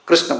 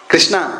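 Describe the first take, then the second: First: It is said the way Sanskrit pronounces it. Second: It is said the way South Indians pronounce it. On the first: "Sanskrit पूरा कृष्ण कृष्ण बोलते हैं" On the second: "south India में जाएंगे क्या बोलेंगे?"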